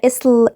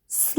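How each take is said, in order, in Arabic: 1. فيه حركة قصيرة قبل الـ s. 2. الـ s بيبدأ على طول من غير أي حركة. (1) "تبقى اسل" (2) "لازم ننطق الاس وبعدين ل سل"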